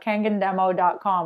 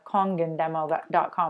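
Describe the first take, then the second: First: The first syllable sounds like 'kan'. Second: The first syllable sounds like 'kon'. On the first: The speaker calls it wrong. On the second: The speaker calls it right.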